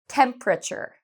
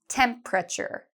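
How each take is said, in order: First: The word is said with three syllables. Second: The same.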